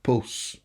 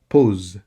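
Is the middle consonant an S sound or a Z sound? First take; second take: S sound; Z sound. First: The middle consonant is a hissing S sound. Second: The middle consonant is a buzzing Z sound. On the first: The speaker calls it wrong. "not pose" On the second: The speaker calls it right. "S between two vowels gives a Z sound. So you have pose"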